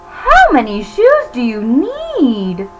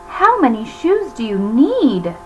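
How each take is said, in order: No difference in how they are said.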